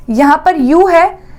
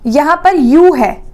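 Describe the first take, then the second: No difference in how they are said.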